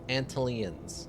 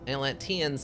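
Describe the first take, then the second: First: The word begins with the sounds 'ant-l'. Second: The word begins with the sounds 'at-lan'. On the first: The speaker calls it wrong. "not Ant Antlians" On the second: The speaker calls it right. "So it's Atlanteans"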